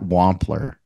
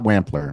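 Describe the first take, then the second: First: The name is pronounced differently from its spelling. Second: The name is pronounced as its spelling suggests. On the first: The speaker calls it right. "despite the spelling" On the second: The speaker calls it wrong. "not Wampler"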